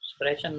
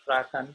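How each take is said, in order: First: The middle consonant is a soft sh sound. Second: The middle consonant is a throaty kh sound. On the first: The speaker calls it wrong. "સ્પ્રેશન નથી" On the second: The speaker calls it right.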